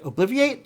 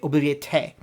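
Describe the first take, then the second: First: The word is said without an extra vowel syllable. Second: The word is said with an extra vowel syllable. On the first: This is the expected, familiar pronunciation. "I was really expecting" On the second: This is how the group actually says it. "they add like another uh, the vowel sound, so there's another syllable there"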